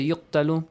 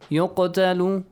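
First: The q sound is flat, without an echo. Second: The q sound bounces with a slight echo. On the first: The speaker calls it wrong. "Do not say يقتل" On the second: The speaker calls it right. "apply the rule قلقلة"

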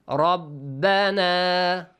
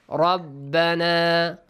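The two takes are said the same way.

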